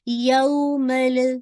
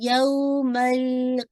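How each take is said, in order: First: The L sound is released with a bounce. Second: The L sound is held for too long. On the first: "लाम को बाउंस नहीं कीजिएगा, ऐसे नहीं पड़ेगा" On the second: "इतना नहीं टाइम देना कि ... ये भी ठीक नहीं है"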